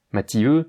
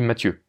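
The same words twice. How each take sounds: First: "Mathieu" broken as Ma-ti-eu, three syllables; a full i before eu in "Mathieu"; split ti-eu. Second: Said in the usual way. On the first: Shown as a demonstration. Teacher gives the wrong version before correcting it, split vowels. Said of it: "non, non, on dit Mathieu". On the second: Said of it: "on dit Mathieu".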